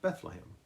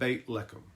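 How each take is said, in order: First: The name is pronounced the usual English way. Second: The name is pronounced the Hebrew way.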